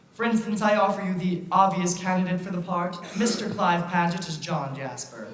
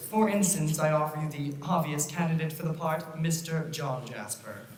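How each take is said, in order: First: Steady theatrical presentation; melodrama narrator. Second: Hushed ominous. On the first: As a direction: present the villain grandly. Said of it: "we boo and hiss the villain". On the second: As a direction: drop to a sinister hush. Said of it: "do this until we get it right". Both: Acted.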